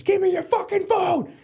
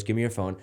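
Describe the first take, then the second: First: Full-throated, very high furious scream, imitating dad; slow, drawn-out enraged yell in front of the whole school. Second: Said in the usual way. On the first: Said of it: "in front of the whole school screams". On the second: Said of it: "He goes".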